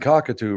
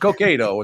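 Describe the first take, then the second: First: The name sounds like the bird 'cockatoo'. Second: The name sounds like 'Cokato', not the bird. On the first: A news anchor mispronounces the town's name. The speaker calls it wrong. "I've heard him say cockatoo like five times on the national news" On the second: This is the local pronunciation of the town. The speaker calls it right. "No, it's Cokato. It's not cockatoo"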